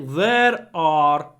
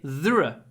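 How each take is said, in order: First: Both words are said fully and separately. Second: The two words merge into one short syllable. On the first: The speaker calls it wrong. "I don't say there are" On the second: The speaker calls it right. "I say there"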